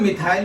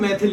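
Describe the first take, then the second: First: The word ends with an 'isle' sound. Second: The word ends with an 'ill' sound. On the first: "अब इसका नाम मिथाइल भी होता है" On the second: "मैथिल भी पढ़ते हैं"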